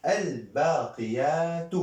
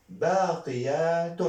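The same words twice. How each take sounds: First: "الباقيات" said al-baaqiyaatu, high, long vowels; single damma ending. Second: "باقيات" said baaqiyaatun, high, long vowels; double damma ending. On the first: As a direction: stretch "الباقيات", ending on -tu without n. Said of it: "ضمة واحدة". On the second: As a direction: stretch "باقيات" and close on -tun. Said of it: "دو ضمة". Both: Shown as a demonstration.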